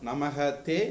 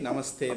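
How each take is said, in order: First: Two separate words with an h-like breath before te. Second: One joined word with an s sound before te.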